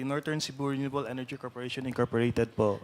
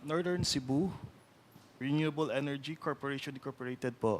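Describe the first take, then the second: First: The name is said at a normal, quicker pace. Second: The name is said slowly and deliberately.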